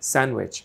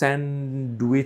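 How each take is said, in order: First: The d sound in the middle is dropped. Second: The d sound in the middle is pronounced. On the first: The speaker calls it right. "এভাবে হবে স্যান্ডউইচ" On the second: The speaker calls it wrong. "কখনো স্যান্ডউইচ বলবেন না"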